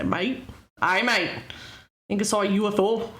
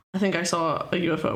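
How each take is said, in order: First: A lightly put-on Canadian accent on mate. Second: Said in the usual way. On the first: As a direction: try for Aussie and slip into Canadian. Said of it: "That's Canadian". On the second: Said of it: "I wouldn't be able to say".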